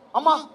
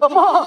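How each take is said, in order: First: It is said plainly, like ordinary speech. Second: It is said with an unusual, elaborate sound.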